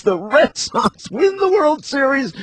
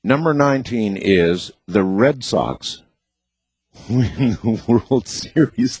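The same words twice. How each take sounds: First: High, thrilled announcement; excited. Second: Said in the usual way. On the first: Real, not acted. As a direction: announce it like a big win. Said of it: "celebrates with ding chant". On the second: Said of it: "repeats it with excitement".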